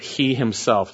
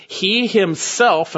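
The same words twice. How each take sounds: First: Said in the usual way. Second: "He himself" slow, high and louder, leaning on He; emphatic He himself. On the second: Shown as a demonstration. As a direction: stretch out "He himself" and hit He hard.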